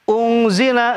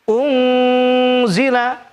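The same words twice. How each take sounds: First: The nasal sound is cut short and rushed. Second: The nasal sound is held for a long time. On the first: The speaker calls it wrong. "jangan buru-buru, jangan ungzila" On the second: The speaker calls it right. "tapi ungzila"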